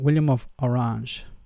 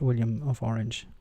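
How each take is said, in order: First: Orange is pronounced the Dutch way. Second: Orange is pronounced the English way. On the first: The speaker calls it right. "I want to do the the correct pronunciation" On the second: The speaker calls it wrong.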